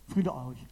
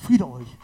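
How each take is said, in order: First: Softer, breathed blessing; breathed softly. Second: Firm proclaiming voice; Jesus speaking peace. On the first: Jesus breathes peace onto the disciples, softly breathed. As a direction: breathe the words gently onto them. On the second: Jesus greets his frightened disciples, firmly proclaiming. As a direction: announce the peace clearly, a touch louder. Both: A narrator's reading. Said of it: "und sagt und haucht".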